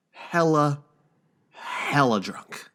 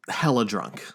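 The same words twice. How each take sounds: First: "hella" stretched slow and leaned on, slowly; drawn-out emphasis. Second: Said in the usual way. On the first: Shown as a demonstration. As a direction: drag out each "hella drunk" slowly for effect.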